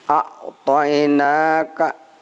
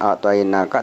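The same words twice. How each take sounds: First: The syllable na is drawn out long. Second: The syllable na is said short. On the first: The speaker calls it right. "na dibacanya panjang" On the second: The speaker calls it wrong. "bukan a'tainaka"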